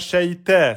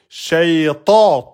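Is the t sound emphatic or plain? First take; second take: plain; emphatic. First: The t sound is plain and light. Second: The t sound is heavy and emphatic. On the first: The speaker calls it wrong. "C'est pas shayta, c'est faux" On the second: The speaker calls it right. "La lettre ta, emphatique"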